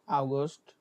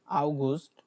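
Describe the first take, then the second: No difference in how they are said.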